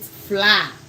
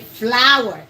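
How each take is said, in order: First: The word is a short single 'fla' sound. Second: The word sounds exactly like 'flower'. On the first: The speaker calls it wrong. "I see a lot of Ghanaians pronounce it fla" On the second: The speaker calls it right. "the correct pronunciation for that is the same as flowers"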